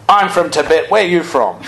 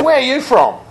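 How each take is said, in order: First: Hearty mock-butcher call, lightly done; matching the butcher's energy. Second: Higher, hearty butcher shout; a burly butcher hollering a greeting; rough butcher. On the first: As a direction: throw the butcher's energy right back. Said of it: "in the same tone, in the same energy". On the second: Retold or imitated. Rough butcher grabs the monk.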